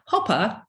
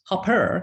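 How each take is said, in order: First: It is said in a British accent. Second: It is said in an American accent.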